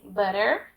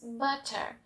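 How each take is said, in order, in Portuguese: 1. O t soa como um r rápido. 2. O t é pronunciado claramente. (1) "Os americanos dizem butter" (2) "os britânicos butter"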